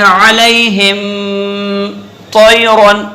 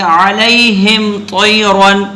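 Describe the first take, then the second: First: "अलैहिम" with a long hummed m, then "तैरन" after a break; wrongly held meem. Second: "अलैहिम तैरन" chanted slowly, no lingering on the meem; correct joined recitation. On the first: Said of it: "इस तरह से नहीं पढ़ेंगे". ("अलैहिम" की मीम पर ठहर कर फिर "तैरन") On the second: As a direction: run "अलैहिम" straight into "तैरन". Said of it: "यानी ऐसे पढ़ेंगे". ("अलैहिम तैरन" में मीम पर रुके बिना तिलावत) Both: Shown as a demonstration.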